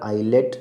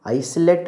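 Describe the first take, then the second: First: The s sound is left out of the word. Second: The s sound is pronounced in the word. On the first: The speaker calls it right. "आइलेट इसका उच्चारण है" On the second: The speaker calls it wrong. "आइसलेट नहीं होकर"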